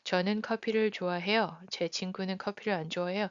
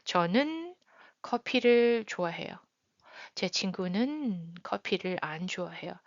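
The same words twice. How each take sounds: First: It is read casually without emphasis or pause. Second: It is read with some emphasis and a pause.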